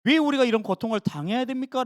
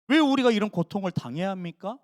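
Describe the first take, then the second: First: Mild grumbling why to God; a touch of sulky grumbling. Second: Mild complaining question to God; a hint of a sulky protest; grumbling complaint. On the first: Retold or imitated. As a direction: complain like a tired servant. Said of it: "투덜거리고 푸념할 때". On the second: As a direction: ask God why, half sulking. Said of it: "푸념하고 있는 거예요".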